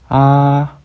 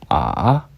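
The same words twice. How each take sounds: First: The pitch stays level and high. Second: The pitch dips low. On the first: "평평한 성조" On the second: "내려가는 성조"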